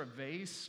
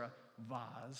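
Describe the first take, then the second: First: "vase" rhyming with "face"; vase as VAYSS. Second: "vase" with an open AH, ending in Z; vase as VAHZ. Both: Shown as a demonstration. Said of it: "depending on where you're from".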